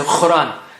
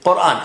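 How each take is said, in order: First: The word begins with a throaty kha sound. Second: The word begins with a deep qa sound. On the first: The speaker calls it wrong. "they say kha instead of qa, like they say Quran. That's not right" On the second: The speaker calls it right. "You should say Quran"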